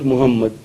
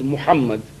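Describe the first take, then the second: First: The middle h is plain and breathy. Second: The middle h is harsh and from the throat. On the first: The speaker calls it wrong. "and not" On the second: The speaker calls it right. "the name of the Prophet has got hay, and therefore it is"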